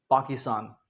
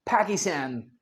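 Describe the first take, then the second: First: PAKISTAN as "paa-ki-staan", low; British pronunciation. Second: PAKISTAN as "pæ-ki-stæn"; American pronunciation. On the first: Teacher giving British version, low "Paakistaan" पाकिस्तान. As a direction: say पाकिस्तान with open aa vowels. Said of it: "British English में हम इसे क्या बोलते". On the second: Teacher assembling the American word, "Pækistæn" पाकिस्तान. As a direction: say पाकिस्तान lower, flat a's. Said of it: "तो वो बन गया". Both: Shown as a demonstration.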